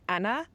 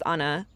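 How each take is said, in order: First: The name is said with a British pronunciation. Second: The name is said with a Spanish pronunciation. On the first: "their accent sounds like" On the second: "associated with when we speak Spanish"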